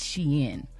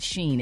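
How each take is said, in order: First: The name sounds like 'she-in', two syllables. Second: The name sounds like 'sheen', one syllable. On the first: The speaker calls it right. "it's Shein" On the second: The speaker calls it wrong. "It's not Sheen"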